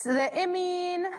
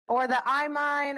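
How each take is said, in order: First: "imine" said as IM-een, slow; short-i imine. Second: "imine" said as EYE-mine; long-i imine. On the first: Teacher offers the first pronunciation of "imine", as IM-een. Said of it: "or the imine or whatever you guys wanna pronounce it". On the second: Teacher offers the other pronunciation of "imine", as EYE-mine. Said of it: "or whatever you guys wanna pronounce it". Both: Shown as a demonstration.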